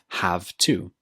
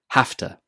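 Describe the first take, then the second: First: It is said as two full words with v. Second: It is said reduced, with an f sound. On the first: "hafta is a contraction of have to" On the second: "When speaking quickly, we change it to hafta"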